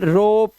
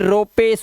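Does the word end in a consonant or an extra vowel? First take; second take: consonant; extra vowel. First: The word ends on the final p sound. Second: The word ends with an extra e vowel. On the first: The speaker calls it right. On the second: The speaker calls it wrong.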